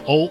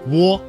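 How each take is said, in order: First: The vowel glides from o to u. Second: A w sound comes before the o. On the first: "一个是由哦过渡到了呜" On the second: "窝在哦这个单元音前面加了一个声母呜"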